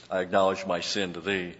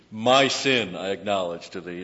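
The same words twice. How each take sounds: First: Said in the usual way. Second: "My sin" punched louder at the front; stress on MY SIN. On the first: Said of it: "then the New American Standard puts it". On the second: Shown as a demonstration. Preacher showing the emphatic word order, stressing "My sin". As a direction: lead hard with "My sin". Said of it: "when he says, and it's emphatic".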